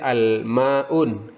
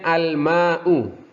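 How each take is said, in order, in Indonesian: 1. Kata ini berakhir dengan bunyi n yang ditambahkan. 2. Kata ini berakhir dengan vokal tanpa n.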